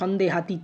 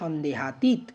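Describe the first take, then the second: First: The word ends with an extra final vowel. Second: The word ends closed on the t sound. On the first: The speaker calls it wrong. "সন্দেহাতীত না" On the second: The speaker calls it right. "সঠিক উচ্চারণ হচ্ছে সন্দেহাতীত"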